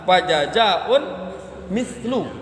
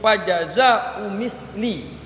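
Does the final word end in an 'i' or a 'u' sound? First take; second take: u; i. First: An -n follows jaza'u; the last word ends in -u. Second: No -n after jaza'u; the last word ends in -i. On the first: The second word describes the first. "Kalau yang kita kaji adalah" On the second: The two words form a possessive construction. "tidak dibaca tanwin, tapi mengidofakan"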